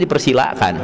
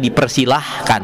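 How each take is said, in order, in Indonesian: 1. Tidak ada bunyi h sebelum suku kata terakhir. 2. Bunyi h muncul sebelum suku kata terakhir. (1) "harusnya dipersilakan" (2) "tina kebiasaan teuing janten dipersilahkan"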